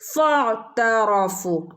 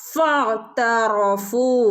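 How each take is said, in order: First: The first vowel is short and joined on. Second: The first vowel is short and joined on.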